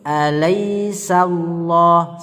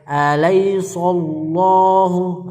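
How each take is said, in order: First: The s sound is light and thin. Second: The s sound is heavy and thick. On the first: The speaker calls it right. "sanya tipis" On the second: The speaker calls it wrong. "jangan sampai"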